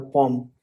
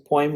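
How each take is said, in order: First: "poem" said as POME; "poem" with a plain o straight into m; second variant. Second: "poem" said as POY-m; "poem" in two sounds, poy-um; first variant. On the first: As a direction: say "poem" in one syllable. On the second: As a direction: say "poem" with an oy glide. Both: Shown as a demonstration. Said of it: "It's a poem or poem".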